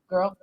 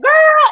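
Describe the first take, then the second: First: It sounds disapproving and cold. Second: It sounds friendly and approving.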